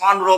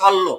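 First: The middle is an n followed by r. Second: The middle is a long double l. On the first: The speaker calls it wrong. "সন রো বলবো না" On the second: The speaker calls it right.

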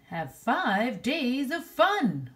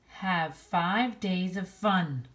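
First: It is read in an excited, emphatic way. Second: It is read in a plain, calm way.

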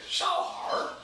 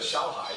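First: The word ends with a curled-tongue R sound. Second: The word ends in a plain vowel without R.

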